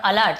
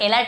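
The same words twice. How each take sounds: First: "अलर्ट" as uh-LERT; teacher modelling short uh in "अलर्ट"; correct schwa pronunciation. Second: "अलर्ट" misread as ay-lert; deliberately wrong first vowel in "अलर्ट"; wrong letter-name pronunciation. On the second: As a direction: open "अलर्ट" on a long ay. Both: Shown as a demonstration. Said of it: "अलर्ट नहीं बोल रहा".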